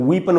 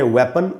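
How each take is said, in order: First: The first vowel is a long 'ee' sound. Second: The first vowel is a short 'e' sound. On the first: The speaker calls it wrong. "इसको भी कई बार लोग वीपन वगैरह पढ़ लेते हैं, वो ठीक नहीं है" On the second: The speaker calls it right. "इसको हम पढ़ेंगे वेपन"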